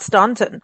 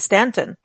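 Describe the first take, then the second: First: The first syllable sounds like 'stawn'. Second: The first syllable sounds like 'stan'. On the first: The speaker calls it wrong. "not Staunton" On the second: The speaker calls it right. "they want to be Stanton"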